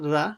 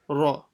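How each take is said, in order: First: The r sound is thin and light. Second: The r sound is full and heavy. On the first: The speaker calls it wrong. "So it's not ra" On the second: The speaker calls it right. "try to read the ra full mouth"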